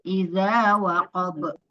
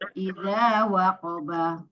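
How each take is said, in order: First: The phrase ends on a bouncing stopped consonant. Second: The phrase ends with a final vowel.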